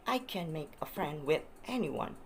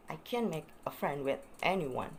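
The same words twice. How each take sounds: The two takes are said the same way.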